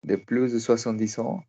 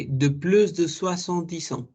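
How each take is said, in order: First: De plus de soixante-dix ans repeated after the model, a little unsure; student repeat. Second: De plus de soixante-dix ans said clearly as the model; teacher's model. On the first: Student echoes De plus de soixante-dix ans after the teacher. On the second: Teacher models De plus de soixante-dix ans for the student. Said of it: "Ah, ok". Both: Shown as a demonstration.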